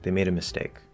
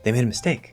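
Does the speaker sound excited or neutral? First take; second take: neutral; excited. First: It is said in a plain, neutral way. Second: It is said with excited, lively energy. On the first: This is just a plain statement of fact. "That's just normal" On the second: The mistake is good news for the speaker. "If I'm really excited"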